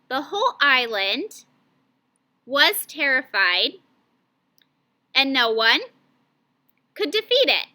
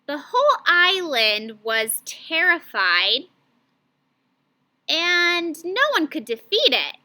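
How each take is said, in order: First: It is broken into many small word groups. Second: It is read as two groups, split before 'and'. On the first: The speaker calls it wrong. "Those were smaller scoops" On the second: The speaker calls it right. "that sounded way better"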